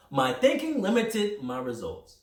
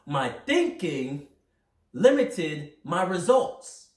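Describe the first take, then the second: First: Said in the usual way. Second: Slow and deliberate, every word weighted; slow emphasis. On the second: Real, not acted. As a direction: drive each word home slowly. Motivational emphatic slow delivery.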